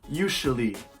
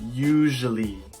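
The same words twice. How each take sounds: First: The middle consonant sounds like an r. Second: The middle consonant is a voiced zh. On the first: The speaker calls it wrong. "an R sound" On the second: The speaker calls it right. "We want to use a voiced sound"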